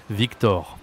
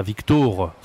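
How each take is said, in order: First: Victor with open 'aw' in the last syllable; correct open O. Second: Victor with a closed 'oh' in the last syllable; wrong closed O. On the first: Teacher correcting after the mistake, Victor with open O. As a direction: say Victor as 'veek-TAWR', open O. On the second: Teacher mocking the mistake for learners, Victor with closed O. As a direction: say Victor as 'veek-TOHR'. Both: Shown as a demonstration. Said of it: "pas Victor".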